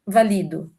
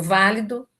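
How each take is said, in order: First: "valido" stressed on the middle syllable, va-LI-do; stress on second syllable. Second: "válido" stressed on the first syllable, VÁ-li-do. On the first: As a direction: hit the "li" of "valido". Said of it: "Quando é verbo e tal". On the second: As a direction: hit the opening "vá" of "válido". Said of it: "palavras que têm duas sílabas tônicas". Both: Shown as a demonstration.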